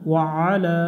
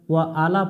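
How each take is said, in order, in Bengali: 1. শেষের 'a' স্বরটি লম্বা করে টানা হয়। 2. শেষের 'a' স্বরটি ছোট রাখা হয়।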